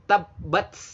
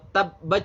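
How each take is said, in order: First: The final consonant sounds like ts. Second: The final consonant sounds like ch. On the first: "Salah besar kalau hamas dianggap seperti ts" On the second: "Salah besar kalau hamas dianggap seperti ... ch"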